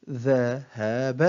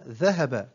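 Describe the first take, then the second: First: Very slow, each syllable drawn out separately; broken into syllables. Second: Said in the usual way. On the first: Shown as a demonstration. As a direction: sound out the word syllable by syllable. (تقطيع الكلمة ببطء شديد مقطعًا مقطعًا) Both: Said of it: "تقطع الكلمة إلى حروف".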